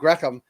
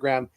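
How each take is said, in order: First: The name is said with a Spanish pronunciation. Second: The name is said with an English pronunciation. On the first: "in Spain someone pronounced it Graham" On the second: "as opposed to"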